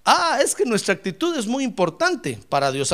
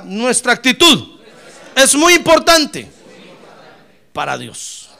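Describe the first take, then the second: First: Said in the usual way. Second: "Nuestra actitud es muy importante" slow and louder, "muy" pitched high; slow emphatic call. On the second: Shown as a demonstration. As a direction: lead the congregation to repeat it, word by word. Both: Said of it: "A ver, diga".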